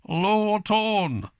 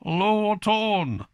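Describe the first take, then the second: First: It is said with broad Cumbrian vowels. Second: It is said with broad Cumbrian vowels.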